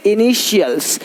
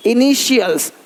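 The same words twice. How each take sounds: The two takes are said the same way.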